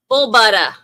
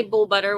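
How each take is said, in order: First: Loud Boston "Bull butter", ending in "buttah"; put-on Boston accent, performed on request. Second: Said in the usual way. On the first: Shown as a demonstration. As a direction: belt it out in a mock Boston accent, R dropped. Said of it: "Say bull butter with a box".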